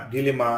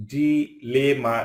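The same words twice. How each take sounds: First: Said in the usual way. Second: "dilemma" pulled apart for learners; split syllables. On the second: Shown as a demonstration. Word split by syllable, then whole.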